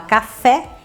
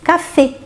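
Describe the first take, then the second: First: The final E vowel is open. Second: The final E vowel is closed. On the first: This is the Portuguese pronunciation. "em português a gente vai abrir o E" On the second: This is the French pronunciation. "e em francês"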